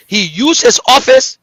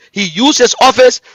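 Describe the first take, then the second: No difference in how they are said.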